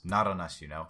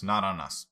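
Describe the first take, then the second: First: Said in the usual way. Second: Shouted all caps; full caps. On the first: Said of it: "Just first letter of the sentence". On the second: Acted. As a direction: bark it out in capitals. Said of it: "Full caps".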